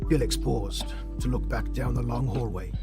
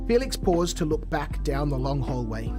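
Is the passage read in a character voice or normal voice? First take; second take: character voice; normal voice. First: It is read in a put-on character voice. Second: It is read in the speaker's ordinary voice. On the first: "can I get a character voice tonight" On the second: "I'll use my dad voice"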